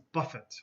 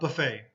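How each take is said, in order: First: It is said with the verb pronunciation. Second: It is said with the noun pronunciation. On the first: Something hits something again and again. "The next pronunciation of this word, ... buffet is the verb" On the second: A restaurant where you serve yourself. "This is a buffet restaurant"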